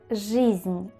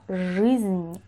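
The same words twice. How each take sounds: First: The vowel is a clear 'ee' sound. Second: The vowel is a darker, more central sound. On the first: The speaker calls it wrong. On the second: The speaker calls it right.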